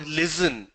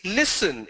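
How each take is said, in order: First: "listen" with a buzzing z, LIZ-en; z in place of s in "listen"; wrong pronunciation demo. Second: "listen" with a voiceless s, LISS-en; correct pronunciation demo. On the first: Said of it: "It's not listen". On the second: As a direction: say "listen" with a hissed s. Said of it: "It's a s sound". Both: Shown as a demonstration.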